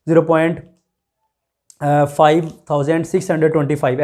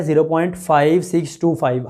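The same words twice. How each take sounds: First: "zero point, five thousand six hundred twenty five" read with the digits after the point grouped as one big number; wrong way of reading decimals. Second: "zero point five six two five" with every digit after "point" read one by one; correct decimal reading. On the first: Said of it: "ऐसे नहीं पढ़ना". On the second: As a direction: model the right way, each digit after the point said separately. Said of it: "एक एक करके number को पढ़ना है". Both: Shown as a demonstration.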